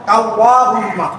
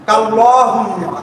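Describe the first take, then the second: Both takes have the same delivery.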